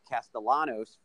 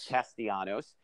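First: The L sound in the name is pronounced. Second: The L sound in the name is silent. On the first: The speaker calls it wrong. "I'm mispronouncing his name" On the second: The speaker calls it right. "The L is silent"

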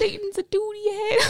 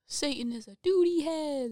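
First: It is said in a very high-pitched voice. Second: It is said in a normal speaking voice.

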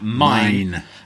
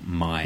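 First: The word is screamed loudly. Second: The word is said calmly and quietly. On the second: "I wouldn't say she screamed this week. It was more like"

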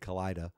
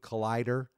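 First: The final R is dropped, Boston style. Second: The final R is clearly pronounced.

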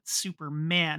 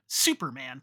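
First: The stress is on the last part, man. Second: The stress is on the first part, super. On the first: He is a man with a duty to do good. The speaker calls it right. "He's a man who has a job to make the world a better place" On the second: He is a superhero with powers. The speaker calls it wrong. "Not Superman"

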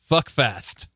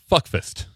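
First: The second word has the vowel of 'fast'. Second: The second word has the vowel of 'fist'. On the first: The speaker calls it wrong. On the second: The speaker calls it right.

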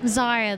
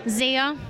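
First: The name is said with a softer, gentler sound. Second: The name is said with a harsher, aggressive sound. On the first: The speaker calls it right. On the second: The speaker calls it wrong.

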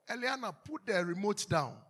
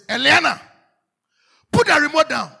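First: The command is said softly and casually. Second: The command is said forcefully and sternly. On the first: The listener does not take the command seriously. The speaker calls it wrong. "Then they think you are joking" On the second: The listener knows the command is serious. The speaker calls it right. "But when you say"

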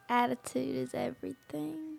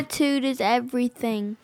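First: It is said quietly and less clearly. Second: It is said louder and more clearly.

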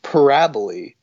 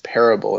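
First: The word is pronounced as parabole. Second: The word is pronounced as parable. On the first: The speaker calls it wrong. "she's like, parabole" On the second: The speaker calls it right. "no, the word is parable"

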